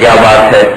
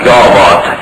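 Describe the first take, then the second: First: It is said as a plain, curious question. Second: It is said with an amazed, admiring tone. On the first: The speaker asks what the other person wants to say. "इसका मतलब है कि आप क्या कहना चाहते हैं" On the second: The speaker finds something wonderful or strange. "यानी कैसी अजीब"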